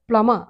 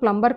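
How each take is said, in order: First: The word is said without a b sound. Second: The word is said with a b sound. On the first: The speaker calls it right. "ప్లమ, ప్ల మా అంతే" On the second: The speaker calls it wrong. "అది pronunciation ప్లంబర్ కాదు"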